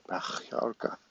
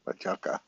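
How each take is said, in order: First: Majorca whispered with the J as a rough throaty H sound; Spanish J as H. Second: Said in the usual way. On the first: Shown as a demonstration. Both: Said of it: "isn't it your J pronounced like an H".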